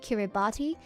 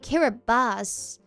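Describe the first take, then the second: First: The last syllable is said with a T sound. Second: The last syllable is said with an S sound. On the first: The speaker calls it wrong. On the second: The speaker calls it right.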